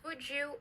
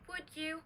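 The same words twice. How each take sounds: First: The d and y merge into a j sound. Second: The d and y sounds stay separate. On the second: "D plus Y"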